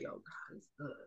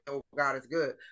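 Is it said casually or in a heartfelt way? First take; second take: heartfelt; casually. First: It is said with deep, heartfelt conviction. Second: It is said casually, without much feeling.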